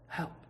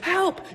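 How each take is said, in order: First: It is muttered very quietly. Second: It is said loudly and excitedly.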